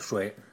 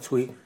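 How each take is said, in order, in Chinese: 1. 这个音节读 shuai。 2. 这个音节读 cui。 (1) "就是衰老的衰" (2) "那时候念崔"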